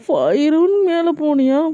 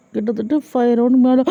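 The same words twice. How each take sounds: First: Gasp, then high-pitched disbelief; shocked echo. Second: Hesitant, understated answer; sheepish admission. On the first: Jimin hears Suga's confession, gasping and shocked. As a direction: repeat "five round மேல" in outraged shock. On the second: Suga answers Jimin's accusing question, sheepish and hesitant. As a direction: own up to "five round மேல" reluctantly. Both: A narrator's reading.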